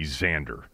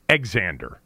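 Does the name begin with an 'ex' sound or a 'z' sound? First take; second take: z sound; ex sound. First: The name begins with a z sound. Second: The name begins with an ex sound. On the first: The speaker calls it right. "would be the correct pronunciation" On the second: The speaker calls it wrong. "It wouldn't be Exander"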